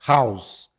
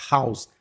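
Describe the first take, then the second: First: House with a clear breathy h at the start; louder house with a puffed h. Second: House with silent h; house without h. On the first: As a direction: blow the h in house. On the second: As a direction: say house starting on the vowel, no breath. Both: Shown as a demonstration. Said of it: "a gente fala".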